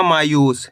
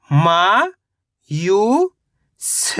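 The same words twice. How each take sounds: First: Said in the usual way. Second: Sound by sound. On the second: Shown as a demonstration. Teacher breaking a word down for learners, syllable by syllable. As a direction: sound out मा ... यू ... स with pauses. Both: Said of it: "तो मिलके बन जाएगा".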